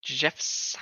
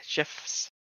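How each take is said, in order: First: Said in the usual way. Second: Breathy whispered Jeff's; whispered name. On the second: Real, not acted. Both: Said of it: "the way you said Jeff".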